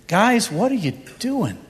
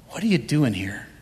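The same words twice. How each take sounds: First: Gentle voice of the Lord. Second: Hushed repeat. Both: Acted. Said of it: "So he says to them".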